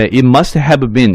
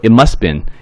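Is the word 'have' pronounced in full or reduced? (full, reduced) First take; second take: full; reduced. First: Every word, including 'have', is pronounced in full. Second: The word 'have' is reduced and almost disappears. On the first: "이런 식으로 발음 안 하고" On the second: "이런 식으로 줄여서 발음했죠"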